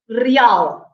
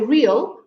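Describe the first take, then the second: First: The stress falls on the last part. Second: The stress falls on the first part. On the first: This is the Portuguese pronunciation. "we say real" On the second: This is the English pronunciation. "you say real"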